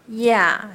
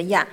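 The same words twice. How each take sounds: First: 呀 with a lengthened vowel; long vowel. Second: 呀 short, with no long tail; short vowel. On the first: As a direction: draw out the 呀. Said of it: "再加个长音". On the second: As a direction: cut 呀 short without lengthening. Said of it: "再来一个没有长音的呀". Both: Shown as a demonstration.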